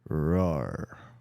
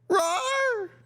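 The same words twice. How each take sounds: First: It is said in a deep voice. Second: It is said in a high-pitched voice.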